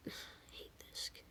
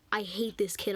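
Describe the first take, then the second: First: Very soft, voiceless teacher's whisper; whisper under breath. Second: Said in the usual way. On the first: Retold or imitated. Teacher about the student she dislikes, whispered under breath. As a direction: imitate a teacher whispering to herself. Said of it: "heard her whisper under her breath". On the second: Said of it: "You, you said".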